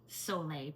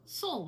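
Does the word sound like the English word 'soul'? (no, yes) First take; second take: no; yes. First: The word does not sound like 'soul'. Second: The word sounds exactly like 'soul'. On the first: The speaker calls it right. "It's pronounced Sole" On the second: The speaker calls it wrong. "sometimes it's mispronounced soul water"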